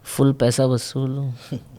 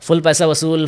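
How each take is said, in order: First: It is said timidly and shyly. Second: It is said boldly and confidently. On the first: This is the early, embarrassed delivery. "उसको इस तरह से बोलता था मैं" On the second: This is the polished, successful delivery. "ये dialogue पे मैंने काफ़ी हिट्स दिए हैं"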